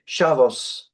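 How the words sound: It is said with an Ashkenazi pronunciation.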